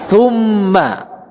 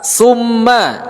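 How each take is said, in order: First: The first consonant is a soft th sound. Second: The first consonant is a hissing s sound. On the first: The speaker calls it right. "tapi tha" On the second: The speaker calls it wrong. "yaitu dibaca sa. Ini salah"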